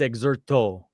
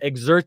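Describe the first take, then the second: First: It is said with a Japanese accent. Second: It is said with an American English accent.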